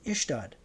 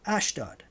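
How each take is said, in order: First: The name begins with an 'ih' vowel sound. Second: The name begins with an 'ah' vowel sound. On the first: "it's pronounced here Ishtad" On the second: "and then in brackets Ashdod"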